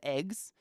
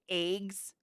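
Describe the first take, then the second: First: It is said in a standard accent. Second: It is said in a regional country accent. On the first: "instead of" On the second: "They say"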